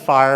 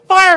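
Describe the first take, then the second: First: The word is said calmly and sleepily. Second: The word is said urgently and with alarm. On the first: Nothing is wrong. The speaker calls it wrong. "it sounds like I'm saying, go to sleep. There's nothing wrong" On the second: There is real danger right now. The speaker calls it right. "Now I sound urgent"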